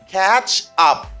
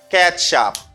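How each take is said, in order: First: The phrase is said slowly and separately. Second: The phrase is said quickly and linked.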